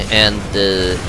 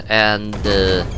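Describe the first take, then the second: No difference in how they are said.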